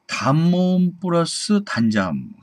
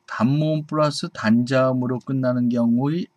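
First: "단모음" raised higher and slowed down; teacher flagging the tricky rule with a high, slow "단모음"; emphatic rule. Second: Said in the usual way. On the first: Shown as a demonstration. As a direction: announce "단모음 플러스 단자음" high and slow like a key rule.

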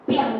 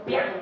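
First: "biang" starting loud, then dropping away as it is cut off; demonstrating "biang" being swallowed mid-curse; swallowed swear sound. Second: A quick, clipped swear blurt "biang"; the boy's curse "biang" escaping; blurted swear sound. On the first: Shown as a demonstration. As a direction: let "biang" fall and die in the throat. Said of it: "就掉下去那个声音". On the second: Retold or imitated. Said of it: "的一个脏话就出来了".

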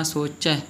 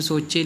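First: ਸੋਚੈ ending in an open ae. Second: ਸੋਚੇ ending in a close e; wrong e ending. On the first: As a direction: end ਸੋਚੈ on open e as in "bed". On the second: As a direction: end ਸੋਚੇ on e as in "they". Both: Shown as a demonstration. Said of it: "ਇਹਨੂੰ ਸੋਚੇ ਨਹੀਂ ਬੋਲਣਾ".

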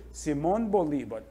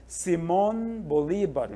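First: Said in the usual way. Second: Simón Bolívar slowly, drawing out MÓN and LÍ; teacher's slow Simón Bolívar, tonic syllables stretched; stressed syllables shown. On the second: Shown as a demonstration. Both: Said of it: "Aqui nós temos a tônica".

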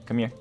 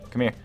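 No difference in how they are said.

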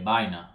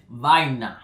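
First: "vaina" quick and relaxed, V softened to a B; natural vaina. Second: "vaina" said slowly with a crisp English V; "vaina" drawn out, V sound clearly bitten; odd vaina. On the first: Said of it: "That is not how I say it". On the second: Explaining slang to viewers, saying "vaina" slowly with a hard English V. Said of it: "I don't even know why I said it like that". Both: Shown as a demonstration.

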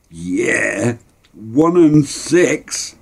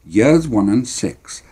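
First: Put-on drawn-out, rising-pitched boyish glee; gloating delight. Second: Said in the usual way. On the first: Boy to his mates about Ma's money, gloating. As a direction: stretch it out slowly, high and triumphant.

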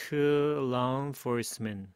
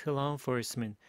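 First: Slow, stretched-out "To law enforcement"; unhurried, syllable-by-syllable model; slow demonstration. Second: Said in the usual way. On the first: Shown as a demonstration. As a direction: draw each word out for learners. Teacher repeats the phrase slowly.

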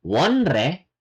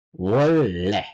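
First: "wonre" with n then r; wrong spelling pronunciation. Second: "wolle" low, with a long held ll; correct assimilated pronunciation. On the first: Korean teacher showing what not to say, spelling pronunciation. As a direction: keep n and r apart in "wonre". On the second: Korean teacher modelling the right form, assimilated pronunciation. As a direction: stretch the double L of "wolle". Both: Shown as a demonstration. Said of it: "Not wonre".

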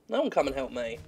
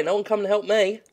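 First: Muttered repeat. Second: Higher, indignant complaint; mock complaint. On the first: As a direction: grumble it to yourself. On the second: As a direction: whine it to the room. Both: Shown as a demonstration.

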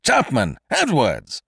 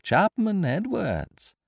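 First: Loud, drawn-out call for both servants; high, urgent summons; crying out. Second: High, slow singsong mimicry of a call; mocking echo. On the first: Alarmed master summons secretary and servant, crying out loudly. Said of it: "Mister Kesselbach cried again". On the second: Intruder mimics his victim's call for servants, mockingly. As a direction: parrot the shout teasingly, without the volume. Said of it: "echoed the stranger in his turn". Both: A narrator's reading.

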